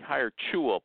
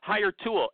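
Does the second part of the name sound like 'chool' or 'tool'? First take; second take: chool; tool. First: The second part sounds like 'chool'. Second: The second part sounds like 'tool'. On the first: "Apparently it's supposed to be Hire Chewel" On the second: "I don't pronounce it that way"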